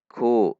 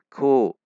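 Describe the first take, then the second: First: The k is light, with the tongue kept low. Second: The same.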